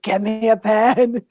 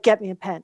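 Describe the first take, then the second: First: Slower, each word pressed; insistent repeat. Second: Said in the usual way. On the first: Retold or imitated. To the puzzled masseuse, slow insistent repeat. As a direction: repeat it slowly so she gets it. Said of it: "I was like". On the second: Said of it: "And I was like".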